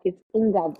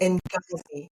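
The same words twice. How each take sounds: First: Ngozi said as "ing-GAH-zee", nasal n onto a hard g; correct pronunciation. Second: "Ngozi" attempted, clipped to "ini"; a tentative repeat of "Ngozi"; trying the name. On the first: Guest correcting the host's "Ngozi", careful pronunciation. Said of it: "Nga-, it's Ngozi". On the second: Host trying the guest's name, hesitant attempt. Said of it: "Am I saying that right?". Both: Shown as a demonstration.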